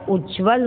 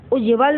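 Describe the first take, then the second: First: Said in the usual way. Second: उज्ज्वल split with an extra vowel, "u-je-val"; mispronounced उज्ज्वल. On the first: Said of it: "होता है". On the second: Shown as a demonstration. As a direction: say उज्ज्वल wrongly as "ujeval". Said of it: "नहीं होता है". (उज्ज्वल को गलत "उजेवल" बोलना)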